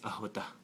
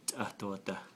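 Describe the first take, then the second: First: The word is said faster with fewer syllables. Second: The word is said slowly with all its syllables.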